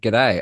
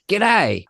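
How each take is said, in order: First: The word is said in a mild, natural accent. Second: The word is said in an exaggerated, broad accent. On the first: This is how the speaker really greets people. The speaker calls it right. "I'm saying g'day" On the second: This is a put-on accent the speaker does not normally use. The speaker calls it wrong. "I don't say g'day. I don't do it like that"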